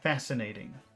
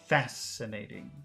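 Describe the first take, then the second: First: The word is said plainly, without extra emphasis. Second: The word is said with strong, focused emphasis. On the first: "That's normal" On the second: "Now let's make it focused"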